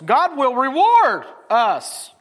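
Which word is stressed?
reward. The stress is on "reward".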